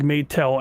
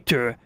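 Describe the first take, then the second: First: The name ends with an L sound. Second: The name ends without an L sound. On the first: The speaker calls it right. "it sounds better with the L sound" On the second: The speaker calls it wrong. "I'm not gonna say it like that"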